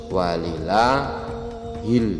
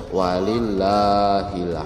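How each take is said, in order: The two takes are said the same way.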